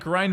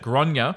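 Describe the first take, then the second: First: The name is said as one syllable, like 'grain'. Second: The name is said as two syllables. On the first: This is the local, anglicized pronunciation. The speaker calls it wrong. "nor do I like the way the pronunciation was butchered" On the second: This is how it is typically pronounced in Ireland. The speaker calls it right. "in Ireland they typically pronounce it"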